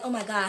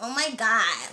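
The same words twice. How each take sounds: First: A deep, low American-accented voice. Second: A lighter, higher valley-girl American voice. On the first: This is the attractive style of accent. The speaker calls it right. "they got that kind of deep" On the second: This is the unattractive style of accent. The speaker calls it wrong. "I don't like the ones that sound like this"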